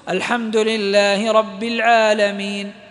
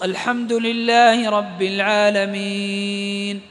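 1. يُمدّ الحرف الذي قبل النون الأخيرة قصرًا. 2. يُمدّ الحرف الذي قبل النون الأخيرة توسطًا. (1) "يجوز فيه القصر" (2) "ويجوز التوسط"

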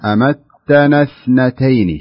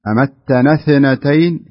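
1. صوت th يُنطق ثابتًا بلا قلقلة. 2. صوت th فيه قلقلة زائدة تتردد بعده. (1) "شوف الثاء ننطقها وتكون ساكنة" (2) "في قلقلة زيادة، لا نبغاها"

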